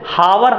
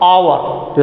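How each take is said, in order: First: The word begins with an h sound. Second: The word begins with a vowel sound. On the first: The speaker calls it wrong. "जैसे हावर हम नहीं पढ़ेंगे" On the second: The speaker calls it right. "यच एक तरह से silent हो जाता है"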